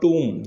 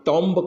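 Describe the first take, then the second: First: The final b is silent. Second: The final b is pronounced. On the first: The speaker calls it right. "इसका उच्चारण होगा टूम" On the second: The speaker calls it wrong. "ज़्यादातर विद्यार्थी टॉम्ब करते हैं जो कि बिल्कुल हंड्रेड परसेंट गलत है"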